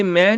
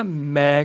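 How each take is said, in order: First: ਮੈਂ nasalised, as 'main'; wrong nasal vowel. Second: ਮੈਂ low, as 'mai' without nasal; corrected oral vowel. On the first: Teacher showing the mistake, ਮੈਂ with nasal ending. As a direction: let ਮੈਂ end in the nose. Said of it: "ਮੈਂ ਨਹੀਂ ਕਹਿਣਾ". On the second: Teacher correcting, ਮੈਂ low as oral 'mai'. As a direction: keep ਮੈਂ out of the nose. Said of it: "ਮੈਂ ਕਹਿਣਾ". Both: Shown as a demonstration.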